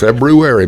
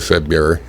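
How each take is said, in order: First: The first r sound is clearly pronounced. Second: The first r sound is dropped. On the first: This is the standard form. "February is the correct pronunciation of that word" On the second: This is the common everyday form. "but most people say February"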